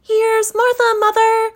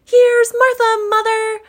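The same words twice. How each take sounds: First: Put-on much higher, louder girlish call; a daughter announcing herself brightly; high girl's voice calling mother; young girl's voice. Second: Two excited little ones shouting together; high shrill children's shout; children crying out. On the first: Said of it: "said a girl". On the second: Acted. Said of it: "cried the two young Cratchits".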